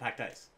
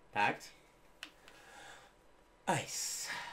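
First: The two words run together quickly without a pause. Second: The two words are separated by a clear pause. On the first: It sounds like one word, like packed dice. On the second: It is clearly the two words packed and ice.

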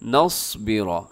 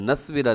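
First: The first consonant is pronounced heavy and full. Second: The first consonant is pronounced thin and light. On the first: The speaker calls it right. "स्वाद मोटा कीजिएगा" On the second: The speaker calls it wrong. "नस्बिरा नहीं है"

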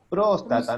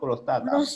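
First: The stress is on the first syllable. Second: The stress is on a later syllable. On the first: The speaker calls it right. "La tilde está en la O, entonces próstata" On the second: The speaker calls it wrong. "no prostata"

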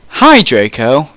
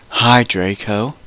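First: The greeting sounds only slightly gloomy. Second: The greeting sounds heavily gloomy and depressed. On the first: The speaker calls it wrong. "Oh, let me try that again" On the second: The speaker calls it right. "I said in a depressed voice"

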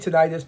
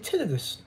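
First: The word has a non-British pronunciation. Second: The word has a British pronunciation. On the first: "I say tinnitus" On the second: "some of the British people will say tinnitus"

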